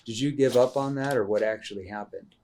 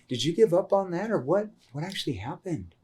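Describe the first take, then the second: First: The question is spoken in a flat monotone. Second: The question is spoken in a concerned tone. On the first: The speaker calls it wrong. "Like monotone tone, not going to work that well" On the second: The speaker calls it right. "Like you're concerned for the consequence of giving up on this"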